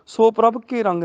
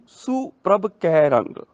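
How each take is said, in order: First: Brisk ਸੋ with o, ਕੇ with narrow e; wrong vowels. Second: ਸੁ with short u, ਕੈ with open ai; correct vowels. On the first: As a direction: run through with so and ke for ਸੋ and ਕੇ. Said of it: "ਨਹੀਂ". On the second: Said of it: "ਸੱਸੇ ਔਂਕੜ ਤੇ ਕੱਕੇ ਨੂੰ ਦਲਾਵਾਂ". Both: Shown as a demonstration.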